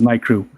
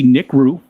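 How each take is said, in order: First: The first syllable sounds like 'night'. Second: The first syllable sounds like 'nick'. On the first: "I always thought it was Night Crew" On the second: "I guess it could be Nick Rue"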